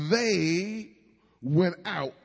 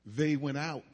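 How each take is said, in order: First: "they" leaned on, a little louder with a lift; stress on they. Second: "they" given the main weight, "went out" said lightly after; stress on they. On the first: Pastor reading scripture to the congregation, stressing "they". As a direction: press hard on "they", then let "went out" fall. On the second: Pastor rereading the verse to the congregation, weighting "they". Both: Shown as a demonstration. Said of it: "I put an emphasis on".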